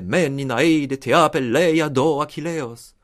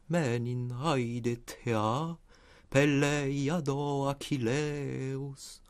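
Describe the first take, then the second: First: Heavy German-style stress beats, with little vowel music. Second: Flowing and musical, with attention to vowel length. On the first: The speaker calls it wrong. "Nietzsche déplorait qu'on applique cette diction allemande au grec ancien. Comme si on disait" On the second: The speaker calls it right. "faire entendre cette musicalité des voyelles"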